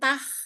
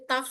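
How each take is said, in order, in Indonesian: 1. Bunyi t itu tipis dan ringan. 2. Bunyi t itu tebal dan berat. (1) "itu tipis"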